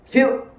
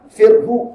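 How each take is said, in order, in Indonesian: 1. Kata ini berakhir tanpa bunyi h di akhir. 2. Kata ini berakhir dengan h ditambah vokal. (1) "Ha tak mati" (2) "jangan panjang pula. Firhu tak mau dia"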